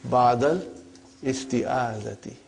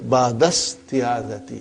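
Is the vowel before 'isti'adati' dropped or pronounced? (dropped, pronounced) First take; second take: pronounced; dropped. First: The vowel starting 'isti'adati' is clearly pronounced. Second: The words run together without the middle vowel. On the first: This is a simplified form for learners. The speaker calls it wrong. "but for simplicity, I still feel that while we are learning, whether we can say" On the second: This is how fluent speakers say it. The speaker calls it right. "your mother tongue is Arabic, you have no problem. Uh, so it will say"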